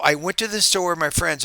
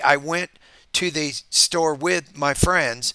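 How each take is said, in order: First: It flows smoothly without pauses inside the sentence. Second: It has several pauses inside the sentence. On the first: The speaker calls it right. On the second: The speaker calls it wrong.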